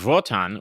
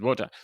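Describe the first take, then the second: First: The name begins with a V sound. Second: The name begins with a W sound. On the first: "which is the German way you would say W" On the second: "I would have said Wotan"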